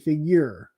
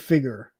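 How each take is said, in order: First: It is said with a 'y' sound. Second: It is said without a 'y' sound. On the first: The speaker calls it right. "I say figure because there's a U in it" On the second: The speaker calls it wrong. "I don't say figure"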